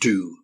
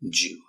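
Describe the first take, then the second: First: It begins with a plain D sound. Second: It begins with a J-like sound. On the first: "from Americans who pronounce it do" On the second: "from an English, British English point of view"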